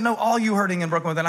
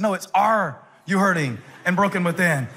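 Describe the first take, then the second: First: "all" said in place of "are", quick; misheard lyric. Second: "Are" hit first, sung as a question; stressed question. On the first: Retold or imitated. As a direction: say "all you hurting" quickly, as the friend misheard it. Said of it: "No, it's 'Are you hurting and broken within?'". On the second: Shown as a demonstration. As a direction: lean on "Are" to make it a question. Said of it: "It's a question".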